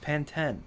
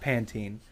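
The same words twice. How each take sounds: First: It is said the way people in London do. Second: It is said the usual American way. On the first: This is how it is said in the UK. "Over there, it's Pantene" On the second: This is how it is said at home. "it's not Pantene"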